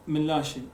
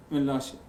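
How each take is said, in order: Both takes have the same delivery.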